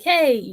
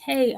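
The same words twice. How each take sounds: First: It is said at a louder volume. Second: It is said at a softer volume.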